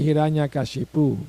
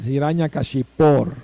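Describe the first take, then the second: First: The name ends in a plain 'u' vowel. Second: The name ends in an 'or' sound. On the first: The speaker calls it wrong. "We say Hiranyakashipu" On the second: The speaker calls it right. "is O R"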